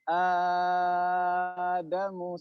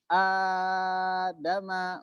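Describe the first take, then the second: First: The long vowel is held for six counts. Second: The long vowel is held for four counts.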